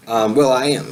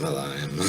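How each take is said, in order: First: Said in the usual way. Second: Unvoiced, soft repeat of the name; whispered echo. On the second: Real, not acted.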